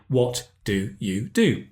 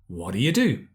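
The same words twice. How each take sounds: First: Each word is said fully and separately. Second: The words are reduced and run together. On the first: "when we read, we say" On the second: "But when we speak, we say"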